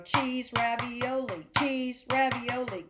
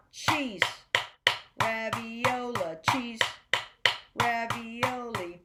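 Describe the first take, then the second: First: "cheese" and "ravioli" run together without the rests; rushed guessing. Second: "cheese" short, long rest, "ravioli" slow and even; subdivided rhythm. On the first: Music teacher showing what you don't want to do, rushed guessing. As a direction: hurry "cheese, ravioli" along, skipping the gaps. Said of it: "What you don't wanna do is". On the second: Music teacher showing students what you want, subdivided rhythm. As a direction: hold a full beat of silence around a stretched "ravioli". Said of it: "You want". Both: Shown as a demonstration.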